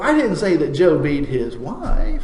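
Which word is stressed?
wife. The word wife carries the main stress. It was a different woman of his. "it was his sister that he was knocking around"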